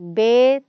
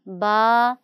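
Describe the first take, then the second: First: It is said in the majhool accent. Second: It is said in the Arabic accent. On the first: This is how elders commonly recite it. The speaker calls it wrong. "ये मजहूल तरीका है।" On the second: This is the proper way to recite it. The speaker calls it right. "अरबी लहजा, मारूफ़ लहजा"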